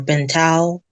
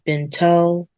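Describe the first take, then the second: First: The name ends with an 'ow' sound. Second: The name ends with an 'oh' sound. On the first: "or Bintao" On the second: "a lot of people mispronounce it. They usually say Binto"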